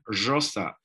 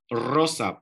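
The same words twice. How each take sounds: First: The r is a buzzing, hissing sound, as in northern Argentina. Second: The r is a rolled trill.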